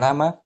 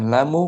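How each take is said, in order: First: The word ends with an added a vowel. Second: The word ends with an added u vowel. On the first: "bukan lama" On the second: "bukan lamu"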